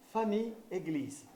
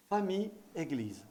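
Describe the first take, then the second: No difference in how they are said.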